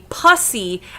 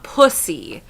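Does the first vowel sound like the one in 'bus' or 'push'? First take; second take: bus; push. First: The first vowel sounds like the one in 'bus'. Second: The first vowel sounds like the one in 'push'. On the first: "it sounds like pus" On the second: "how it's actually pronounced"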